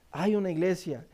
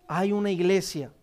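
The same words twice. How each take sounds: The two takes are said the same way.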